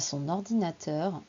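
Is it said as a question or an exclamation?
exclamation. It sounds like an exasperated exclamation. The speaker is exasperated at how much it is used. "Oh là là"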